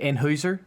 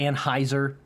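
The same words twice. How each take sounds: First: The name is said with a German-style pronunciation. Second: The name is said with the usual American pronunciation. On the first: This follows the name's original language. The speaker calls it right. "I would say Anheuser. if I was trying to pronounce it like German" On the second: This is how most people say it. The speaker calls it wrong. "People say Anheuser"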